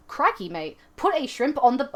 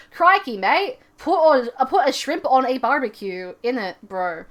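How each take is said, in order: First: Australian accent. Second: Put-on American accent doing Aussie phrases. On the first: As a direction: put on a mild Australian accent. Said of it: "like an awesome Australian accent". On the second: Imagined talent show act, mock American accent. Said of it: "an American accent". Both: Shown as a demonstration.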